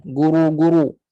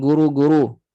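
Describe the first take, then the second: First: GURU with heavy RU, tongue back up; thick ru. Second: GURU with light RU; thin ru. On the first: Teacher invites students to try, thick ru. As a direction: darken RU in guru. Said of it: "Cuba buat". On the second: Teacher shows wrong version, thin ru. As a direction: say guru without raising the tongue back. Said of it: "bukan guru". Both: Shown as a demonstration.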